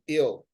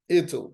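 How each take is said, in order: First: The t sound is dropped from the word. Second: The t sound is clearly pronounced in the word. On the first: "they pronounce it without the T and they go like ill" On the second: "they include the T in the sound"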